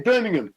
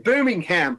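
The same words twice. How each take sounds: First: It is said with a British pronunciation. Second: It is said with an American pronunciation. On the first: "We say Birmingham" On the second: "I just said it like an American there"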